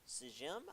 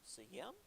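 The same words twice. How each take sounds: First: The letter j is sounded like English j. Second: The letter j is sounded like English y. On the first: The speaker calls it wrong. "I think is the pronunciation" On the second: The speaker calls it right. "the J would be a Y"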